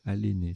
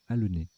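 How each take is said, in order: First: The second-syllable vowel is a closed é. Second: The second-syllable vowel is a mute e. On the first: The speaker calls it wrong. "je les ai mal prononcés tout à l'heure, j'ai dit" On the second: The speaker calls it right. "c'est l'inverse, c'est"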